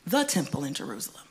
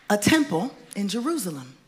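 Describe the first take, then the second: First: THE stressed as a correction, the rest dropping lower and quicker. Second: Said in the usual way. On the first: Shown as a demonstration. Preacher correcting to the one temple, stress on THE. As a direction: lean on THE, then let the phrase fall away.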